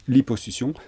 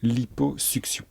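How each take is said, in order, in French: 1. Le double c se prononce avec un son s. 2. Le double c se prononce avec un son k-s. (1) "tout le monde dit liposuction" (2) "mais on devrait dire liposuction"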